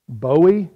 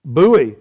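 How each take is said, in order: First: "Bowie" said BOH-ee; correct pronunciation. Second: "Bowie" said BOO-ee; Southern pronunciation. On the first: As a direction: say "Bowie" to rhyme with snowy. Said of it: "would be the correct pronunciation". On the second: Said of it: "how do we say it in the South". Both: Shown as a demonstration.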